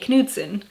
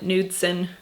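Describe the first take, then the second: First: The K at the start is pronounced. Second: The K at the start is silent. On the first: The speaker calls it right. "we pronounce the K" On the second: The speaker calls it wrong. "people here call it Nudsen, and I'm always like, that's not it"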